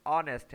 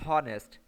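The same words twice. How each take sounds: First: ऑनेस्ट with a silent h, starting on the vowel; ऑनेस्ट pronounced correctly, the h dropped. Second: हॉनेस्ट with a sounded h, hɔnest; हॉनेस्ट read wrongly as spelled, with the h; letter-by-letter reading. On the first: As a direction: say ऑनेस्ट as onest, no h sound. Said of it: "यानी H silent है". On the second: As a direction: say हॉनेस्ट pronouncing every letter, h included. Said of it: "लेकिन हम इसे हॉनेस्ट नहीं पढ़ते". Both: Shown as a demonstration.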